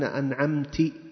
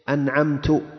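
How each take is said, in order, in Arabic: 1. تنتهي الكلمة بالصوت 'i'. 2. تنتهي الكلمة بالصوت 'u'. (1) "خطاب مؤنث" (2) "هذا أصبح الآن ضمير إيش؟ متكلم"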